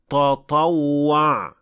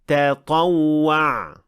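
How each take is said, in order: First: The first t sounds heavy and emphatic. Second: The first t sounds light and plain. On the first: The speaker calls it wrong. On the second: The speaker calls it right. "تطوع, not"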